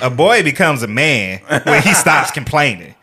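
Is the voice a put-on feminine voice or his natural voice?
feminine. It is read in a put-on feminine voice.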